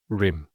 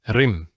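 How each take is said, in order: First: The R sound is soft, with no emphasis. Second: The R sound is produced with strong force. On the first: This is the English pronunciation. "As opposed to rim" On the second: This is the Arabic pronunciation. "When you say the ra, it's done with strength"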